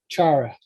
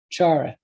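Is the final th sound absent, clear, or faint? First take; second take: absent; absent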